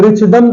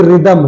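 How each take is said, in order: First: रिचदम with a "ch" in the middle; wrong pronunciation. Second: Said in the usual way. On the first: Shown as a demonstration. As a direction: sound out the h as ch in रिचदम. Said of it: "तो लिखा नहीं है". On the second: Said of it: "एच बिल्कुल silent है".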